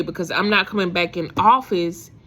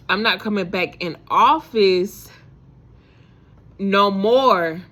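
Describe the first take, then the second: First: Said in the usual way. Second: "office" and "no more" drawn out slowly and louder; slow, firm, insisting "no more"; emphatic repeat. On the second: Retold or imitated. Telling herself she is quitting, slow and emphatic.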